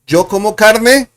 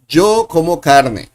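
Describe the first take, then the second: First: It is said as a question, rising. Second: It is said as a statement, falling.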